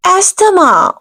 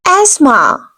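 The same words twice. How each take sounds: First: Asthma with the t sounded, "as-tuh-ma"; wrong asthma. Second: Asthma with a silent t and h, "az-ma"; correct asthma. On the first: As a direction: pronounce every letter in Asthma. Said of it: "this is wrong pronunciation". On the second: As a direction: drop the t and h in asthma. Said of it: "Here T will be silent". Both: Shown as a demonstration.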